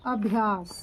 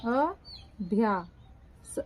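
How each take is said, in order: First: Said in the usual way. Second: Slow dictation. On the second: Shown as a demonstration. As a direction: stretch अभ्यास out syllable by syllable.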